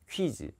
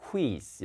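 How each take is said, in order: First: 퀴즈 with one gliding "kwi" syllable; Korean pronunciation. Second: 퀴즈 broken into "ku-i-z"; split u-i. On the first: Shown as a demonstration. Teacher showing what natives can't say, 퀴즈 in one glide. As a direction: say 퀴즈 softly as "kwi-jeu". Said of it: "못해요". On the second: Retold or imitated. Teacher imitating native reading, 퀴즈 split as ku-i. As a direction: softly say 퀴즈 as "ku-i-z". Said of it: "이렇게 읽어요".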